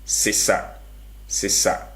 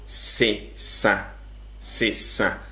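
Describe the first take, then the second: First: "sesa" said unvoiced and light, with no nasal sound, meaning pick; "sesa" unnasalized, as in to pick. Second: "Sesa" with a nasal sound, meaning change; "Sesa" nasalized, as in change something. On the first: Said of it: "But when I say sesa". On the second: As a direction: say "Sesa" through the nose, the change tone. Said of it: "It's a nasal sound". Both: Shown as a demonstration.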